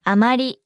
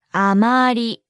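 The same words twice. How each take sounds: First: Said in the usual way. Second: あまり drawn out syllable by syllable; slow model. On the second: Shown as a demonstration. Teacher breaks down the phrase for not very, slowly. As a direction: say あまり slowly, stretching each vowel.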